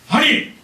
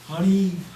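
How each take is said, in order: First: The word is said with strong, forceful intonation. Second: The word is said softly, with mild intonation. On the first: "억양을 좀 강하게 할 때" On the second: "그렇게 부를 때"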